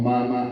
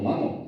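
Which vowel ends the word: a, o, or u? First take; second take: a; o. First: The word ends in an a vowel. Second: The word ends in an o vowel. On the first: "también están mal, oímos muy mal" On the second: "también están mal, oímos muy mal"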